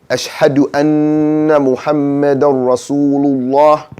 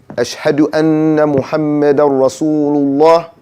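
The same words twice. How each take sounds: Both takes have the same delivery.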